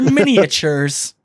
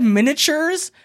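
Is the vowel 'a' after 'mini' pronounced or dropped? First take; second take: pronounced; dropped. First: The 'a' sound after 'mini' is pronounced. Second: The 'a' sound after 'mini' is dropped. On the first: This is the fancier way of saying it. "I'm too fancy for that. They're miniatures" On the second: This is the everyday way of saying it. "I always said miniatures"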